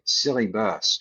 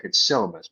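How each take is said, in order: First: "silly bus" said as two words, silly plus bus; mispronounced syllabus. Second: "syllabus" said as one word, SIL-la-bus; correct pronunciation. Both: Retold or imitated.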